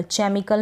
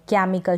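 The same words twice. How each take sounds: First: चेमिकल with a ch sound at the start, like church; wrong reading. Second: केमिकल with a hard k sound at the start; correct reading. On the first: Teacher showing students the wrong way to read it, clearly. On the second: Teacher demonstrating the right way to read it, clearly. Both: Shown as a demonstration. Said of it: "चेमिकल नहीं पढ़ सकते".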